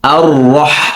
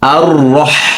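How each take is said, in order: The two takes are said the same way.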